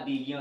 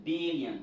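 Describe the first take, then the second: First: "billion" ending in French "-yon"; French-style mispronunciation. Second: "billion" ending "-yan", falling; English pronunciation. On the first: Teacher shows learners what not to say, French-style pronunciation. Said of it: "Ce n'est pas billion". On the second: Teacher corrects the French-sounding word, English model pronunciation. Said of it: "c'est billion". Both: Shown as a demonstration.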